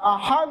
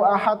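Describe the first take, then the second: First: The final d is bounced with a strong echo. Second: The final d stops flat without any echo. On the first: The speaker calls it right. "Pantulkan. Itu kol-kolah kubro besar. Ahad. Kayak gitu" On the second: The speaker calls it wrong. "Jangan ... salah dah tuh"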